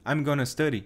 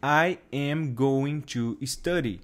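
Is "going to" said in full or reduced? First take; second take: reduced; full. First: It is said quickly, with going to reduced. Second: Every word is said fully and separately. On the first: The speaker calls it right. "Eles vão falar assim, ... fica tão rápido que o going to vira gonna" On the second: The speaker calls it wrong. "Os nativos não vão falar assim"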